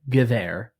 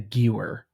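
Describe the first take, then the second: First: The w is pronounced as a v sound. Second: The w is pronounced as an English w. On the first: The speaker calls it right. "a W in German is not pronounced like an English W. It has a V to it. So it is the Gewehr" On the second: The speaker calls it wrong. "not the Gewer, as you like to call it"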